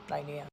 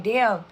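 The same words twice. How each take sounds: First: Quiet damn. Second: Loud damn. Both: Retold or imitated. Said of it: "I was like".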